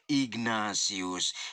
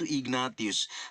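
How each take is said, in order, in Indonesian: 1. Konsonan tengahnya berbunyi s. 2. Konsonan tengahnya berbunyi t. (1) "Tetapi yang dibaca adalah" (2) "penulisannya Ignatius atau yang ditulis itu"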